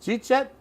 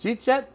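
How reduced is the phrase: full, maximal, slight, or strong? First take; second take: maximal; maximal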